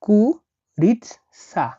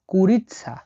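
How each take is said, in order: First: কুরিৎসা stretched out very slowly, a bit higher; slow model word. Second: Said in the usual way. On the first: Shown as a demonstration. (ধীরে টেনে কুরিৎসা উচ্চারণ) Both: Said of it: "মুরগিকে রাশিয়ানে বলা হয়".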